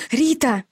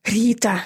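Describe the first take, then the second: First: Breathless call, higher; gasping out a name; out of breath. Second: Panting out a name; out of breath. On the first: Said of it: "задыхаясь, позвала я". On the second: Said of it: "всё ещё тяжело дыша". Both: A narrator's reading.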